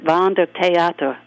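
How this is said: The name is said with German pronunciation. "In German, we pronounced it Wander Theater"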